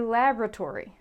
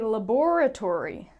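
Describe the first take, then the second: First: It is said in an American accent. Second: It is said in a British accent. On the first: "But if you're American, you say" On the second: "If you're British, you say"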